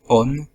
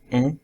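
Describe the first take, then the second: First: The vowel is followed by an n consonant. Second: The vowel is nasal with no n consonant. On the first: The speaker calls it wrong. "ils ont la tendance de dire" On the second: The speaker calls it right. "au lieu de"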